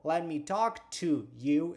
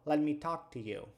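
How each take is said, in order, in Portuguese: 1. A palavra 'to' tem uma vogal plena. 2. A palavra 'to' se reduz a um som rápido de t. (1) "ao invés de eu falar" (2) "eu falo"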